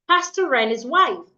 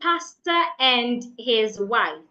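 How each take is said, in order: First: The R links into the next word. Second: The R is not linked to the next word. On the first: The speaker calls it right. "I would say" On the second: The speaker calls it wrong. "instead of saying"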